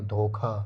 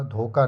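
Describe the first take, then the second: First: धोखा with aspirated kh; correct form. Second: धोखा said "dhoka", plain k; rejected form. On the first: Teacher correcting the word, aspirated kh in धोखा. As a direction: puff the kh in धोखा, "dho-kha". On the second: Teacher rejecting the wrong word, plain k in धोखा. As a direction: drop the breath after k in धोखा. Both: Shown as a demonstration. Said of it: "धोखा नहीं".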